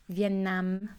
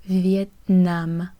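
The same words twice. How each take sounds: First: "Vietnam" with a nasalised final vowel, softer; Canadian French "Vietnam", nasally and soft; nasal Canadian French pronunciation. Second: "Vietnam" slow, with an open oral "nam"; slow France French "Vietnam", full final m; France French pronunciation. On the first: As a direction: send the end of "Vietnam" through the nose. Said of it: "a little bit more nasally sound". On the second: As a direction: draw out "Vietnam" without nasalising the vowel. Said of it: "in France, it was Vietnam". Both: Shown as a demonstration.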